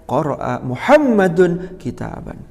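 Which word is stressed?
Muhammadun. The stress falls on the second word, Muhammadun. It answers who read the book. "Kalau yang ditanya siapa yang membaca kitab"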